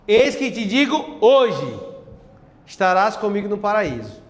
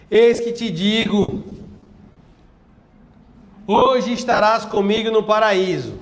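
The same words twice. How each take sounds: First: The pause comes after the word 'hoje'. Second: The pause comes before the word 'hoje'. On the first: The promise is made today for some future time. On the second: They will be in paradise on that same day.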